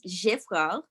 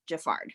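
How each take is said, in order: First: The surname is said with a French pronunciation. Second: The surname is said with an American pronunciation. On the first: It honors the name's French origin. "If you want to be French and say properly" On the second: It honors being American. "If you want to honor being an Am- American"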